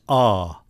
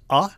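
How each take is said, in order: First: The vowel is held for longer. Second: The vowel is held only briefly. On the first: "a long A is" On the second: "a short A then is"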